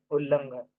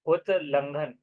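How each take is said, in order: First: उल्लंघन with a long double l, no t; joined form. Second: उल्लंघन said as ut-langhan, t and l apart; split form. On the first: Teacher to students, giving the joined form, ullanghan. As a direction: run उल्लंघन together as ullanghan. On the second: Teacher to students, splitting the word, ut-langhan. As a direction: break उल्लंघन into उत् plus लंघन. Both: Shown as a demonstration.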